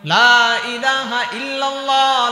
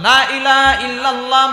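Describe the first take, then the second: First: The vowel of the first word is drawn out. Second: The vowel of the first word is short. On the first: There is no god except God. The speaker calls it right. "এই লা এর মধ্যে তিন আলিফ টান আছে" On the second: There certainly is a god besides God. The speaker calls it wrong. "যদি আপনি এখানে টান ছাড়া পড়েন"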